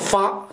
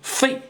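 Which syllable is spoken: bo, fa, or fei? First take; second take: fa; fei. First: The syllable is pronounced fa. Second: The syllable is pronounced fei. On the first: "我认为读作发就好" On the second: "有人说读成费"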